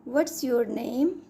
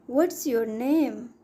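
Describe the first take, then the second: No difference in how they are said.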